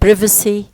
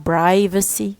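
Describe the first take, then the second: First: It is said in a British accent. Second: It is said in an American accent. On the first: "في British English بقول كلمة privacy" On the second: "في الامريكان بينطقوها privacy"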